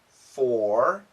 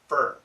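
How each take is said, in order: First: The vowel is full and clearly pronounced. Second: The vowel is reduced, sounding like fur. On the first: "Perfect pronunciation" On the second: "Natural pronunciation"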